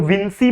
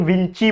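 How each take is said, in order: First: विंसी, second syllable as 'see'; 'विंसी' pronunciation. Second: विंची, second syllable as 'chee'; 'विंची' pronunciation. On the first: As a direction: say विंसी with an s sound in the middle. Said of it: "लोग विंसी बोलते हैं". (विंसी, बीच में 'स' की आवाज़) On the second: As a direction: say विंची with a ch sound in the middle. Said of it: "कुछ लोग विंची बोलते हैं". (विंची, बीच में 'च' की आवाज़) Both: Shown as a demonstration.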